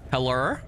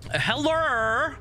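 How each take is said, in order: First: Said in the usual way. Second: High call. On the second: Real, not acted. Calling out in empty monastery.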